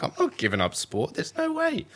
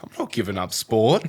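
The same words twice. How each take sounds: First: Stubborn refusal, rising to a high no way; flat-out refusal; defiant. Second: Defiant, louder, stress on not; firm refusal with a punched not. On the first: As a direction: dig in like a teen. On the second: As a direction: insist like a stubborn teen. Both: Retold or imitated. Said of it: "I'm like".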